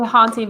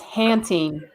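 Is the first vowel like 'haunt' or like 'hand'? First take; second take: haunt; hand. First: The first vowel sounds like 'haunt'. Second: The first vowel sounds like 'hand'. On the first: The speaker calls it wrong. "I always want to say haunting" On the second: The speaker calls it right. "but it's hanting"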